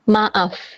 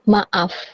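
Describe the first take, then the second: The two takes are said the same way.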